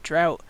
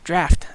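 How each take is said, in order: First: The vowel sounds like the one in 'out'. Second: The vowel sounds like the one in 'laughed'. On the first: The speaker calls it wrong. "I know it looks like drought" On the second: The speaker calls it right. "you pronounce it draft"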